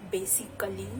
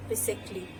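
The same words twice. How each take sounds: First: Basically in a whisper as bay-sik-ally; wrong pronunciation. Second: Basically in a whisper as bay-sik-lee; teacher correcting basically; correct pronunciation. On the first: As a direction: whisper basically with every syllable. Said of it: "It's not basically". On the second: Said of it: "it's basically". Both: Shown as a demonstration.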